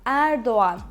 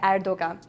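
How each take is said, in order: First: The O and A are connected together. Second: The O and A are kept separate. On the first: The speaker calls it right. "We actually connect O and A" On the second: The speaker calls it wrong. "All the news they say Erdogan, but it's wrong"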